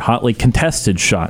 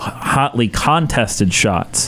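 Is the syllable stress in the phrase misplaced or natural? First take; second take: natural; misplaced. First: The stress falls on the expected syllables. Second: The stress falls on an unexpected syllable. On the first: The speaker calls it right. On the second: The speaker calls it wrong.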